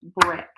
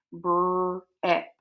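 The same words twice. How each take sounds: First: Said in the usual way. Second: "Breck" drawn out slowly, split into br and eck; sounded out. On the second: Shown as a demonstration. Teacher showing pupils how to spell breakfast, sounding out "Breck". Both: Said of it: "so watch me with breakfast".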